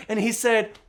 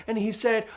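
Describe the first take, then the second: No difference in how they are said.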